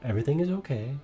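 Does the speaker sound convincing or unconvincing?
unconvincing. The voice sounds hesitant and unconvincing. The speaker calls it wrong.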